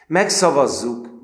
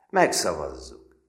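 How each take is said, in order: First: Louder, much higher and slow, with a rising end; drawn out, rallying agreement; slow, loud echo of the vote. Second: Said in the usual way. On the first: A narrator's reading. Narrator echoes the vote louder.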